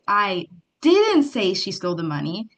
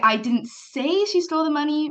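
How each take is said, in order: First: The stress falls on the word didn't. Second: The stress falls on the word say. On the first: The claim is denied outright. "means you're denying it outright" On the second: It was implied but not said. "means maybe you implied it"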